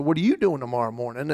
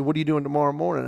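First: "you" lifted and leaned on, question turned back; stress on YOU. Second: Said in the usual way. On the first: Retold or imitated. Patient returning the doctor's question, stress on "you". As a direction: throw it back, punching "you".

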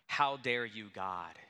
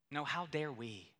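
First: Voicing someone who accuses God; mock indignant demand. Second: "how dare we" with weight on "we", turned back on ourselves; stress on we. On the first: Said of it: "we say". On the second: Real, not acted. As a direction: correct the accusation by pressing on "we".

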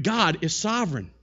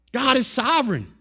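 First: Said in the usual way. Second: Raised, forceful proclamation; emphatic repeat. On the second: Real, not acted. Preacher declaring God's rule to the congregation, emphatic. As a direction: drive it home, high and loud.

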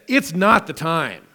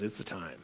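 First: "It's not the time" with weight on not; their words, NOT the time. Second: "It's the time" said quietly and firmly; God's answer, quiet. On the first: Preacher quoting their excuse, stressing not. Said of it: "Notice they said". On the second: God answering the people, softer and firm. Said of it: "God says". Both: Shown as a demonstration.

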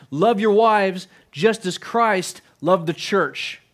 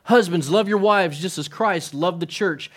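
First: Each word laid down slowly and deliberately; solemn, unhurried scripture quote; slow scripture reading. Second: "love" given the main weight, the rest at normal pace; verse repeated with "love" stressed. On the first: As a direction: read the verse slowly, weighing every word. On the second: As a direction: lean on the word "love" in the verse. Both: Shown as a demonstration. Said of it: "His emphasis is on".

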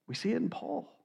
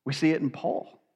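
First: Soft, hushed and higher, almost breathed; hushed repeat. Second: Said in the usual way. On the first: Real, not acted. Preacher repeats it to the congregation, soft and hushed. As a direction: let it fall away to a hush.

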